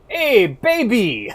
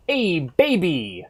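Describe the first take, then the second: First: Put-on high, slow, loud dub-English Hey baby; hammed-up anime dub line; Zeppeli quote. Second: Put-on high, slow, loud Hey baby; hammed-up anime dub line; dub English quote. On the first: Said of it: "Zeppeli going". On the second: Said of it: "The English is just so fun".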